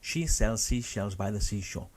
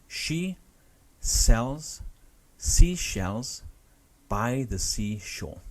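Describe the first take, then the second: First: The sentence is said at a fast pace. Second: The sentence is said at a slow pace. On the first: "speed up, speed up, speed up" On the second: "I'll say it slowly for you first"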